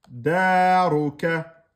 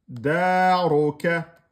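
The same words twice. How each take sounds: Both takes have the same delivery.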